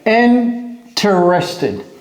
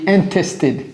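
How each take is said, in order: First: The word is said fully, with every syllable. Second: The word is shortened, with a middle syllable dropped.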